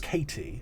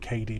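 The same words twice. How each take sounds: First: The name is said without an American accent. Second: The name is said with an American accent. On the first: This is how the speaker thought it was said. "I thought it was Katie" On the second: This is how other people say it. "people say Katie because of like the American accent"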